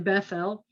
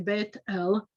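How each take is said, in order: First: The middle consonant is a th sound. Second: The middle consonant is a plain t sound. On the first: The speaker calls it wrong. "you wouldn't say Bethel" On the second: The speaker calls it right. "in modern Hebrew, you'd say Bet El"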